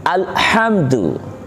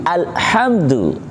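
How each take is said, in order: Both takes have the same delivery.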